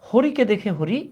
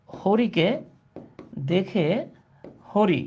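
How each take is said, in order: First: Said in the usual way. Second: Each word set apart by long pauses; word-by-word dictation. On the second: Shown as a demonstration. Teacher dictating a Bangla riddle to class, word by separate word. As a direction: dictate one word, wait, then the next.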